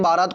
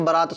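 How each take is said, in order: First: बारात with a long first aa; wrong form. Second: बारात with a short first vowel; correct form. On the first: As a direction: say बारात as "baa-raat". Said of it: "कोई शब्द नहीं होता". (गलत रूप बारात, पहला आ लंबा) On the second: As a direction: say बारात as "ba-raat". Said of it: "शब्द होता है". (बारात को "बरात" बोलें, पहला स्वर छोटा) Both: Shown as a demonstration.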